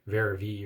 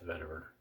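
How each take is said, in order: First: Some letters are silent, in a French way. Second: Every letter is sounded, in an English way.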